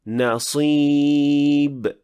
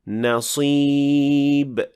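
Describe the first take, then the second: No difference in how they are said.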